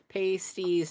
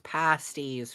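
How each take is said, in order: First: It is pronounced as the word for covers. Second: It is pronounced as the word for food. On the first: It names nipple covers. "nip nop covers" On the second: It names a baked food.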